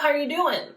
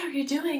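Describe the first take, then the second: First: The voice is heavy and pressed, with firm cords. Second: The voice is light and airy, with loose cords. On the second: "So first with lightweight"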